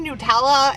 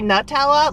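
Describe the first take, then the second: First: The first syllable does not sound like nut. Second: The first syllable sounds like the word nut. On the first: "I've since learned that it's Nutella" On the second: "I used to say Nutella, like nut"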